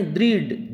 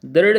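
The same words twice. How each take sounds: First: दृढ़ said as dridh; दृढ़ with रि after द; correct ri vowel. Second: दृढ़ said as darrh, with a for ri; दृढ़ with अ in place of ऋ; wrong vowel. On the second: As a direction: say दृढ़ as dardh, no i sound. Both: Shown as a demonstration. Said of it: "दृढ़ नहीं".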